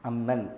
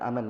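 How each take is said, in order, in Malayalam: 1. മീം ശബ്ദം നീട്ടി ഇരട്ടിച്ചാണ് പറയുന്നത്. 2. മീം ശബ്ദം ചുരുക്കി ഒറ്റയായാണ് പറയുന്നത്. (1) "അം പ്ലസ് മൻ" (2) "മീമിന് ശദ്ദില്ലാതെ"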